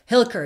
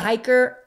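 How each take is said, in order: First: The name is said with an L sound. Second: The name is said without an L sound. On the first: The speaker calls it right. "There we go" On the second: The speaker calls it wrong. "Am I pronouncing that right?"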